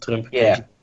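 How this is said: It is said with a Dutch accent. "als je gewoon met een Nederlands accent praat"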